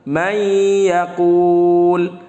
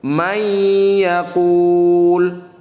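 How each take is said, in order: No difference in how they are said.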